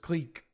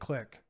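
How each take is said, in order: First: The vowel is a long ee sound. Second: The vowel is a short i sound. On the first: The speaker calls it right. "Even the American pronunciation for the word is Cleek" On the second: The speaker calls it wrong. "I know people that call it Vendilion Click. ... So even Yanks got it wrong"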